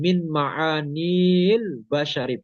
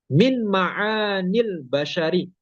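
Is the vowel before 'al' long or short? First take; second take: long; short. First: The vowel is held long before 'al'. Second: The vowel is short and links straight into 'al'. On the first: The speaker calls it wrong. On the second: The speaker calls it right. "bertemu al, bacanya langsung"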